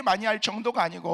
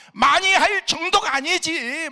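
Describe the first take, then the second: First: Said in the usual way. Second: 많이 slow, high and loud with a rising pull; stress on 많이. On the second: Retold or imitated. Pastor correcting himself, stressing how often he called. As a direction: lean hard on 많이 and stretch 할 정도가.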